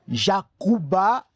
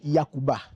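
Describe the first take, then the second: First: The word begins with a J sound. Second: The word begins with a Y sound. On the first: This is the original form of the name. "au lieu de dire Jacuba" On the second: This is how the local people say the name. "on dit Yakuba"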